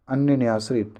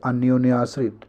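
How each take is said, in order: First: अन्य न्याश्रित without the o; missing o sound. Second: Said in the usual way. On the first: Shown as a demonstration. Teacher showing the wrong compound, no o in अन्य न्याश्रित. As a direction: say अन्य न्याश्रित as anya-nyashrit. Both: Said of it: "ये वाला सही है".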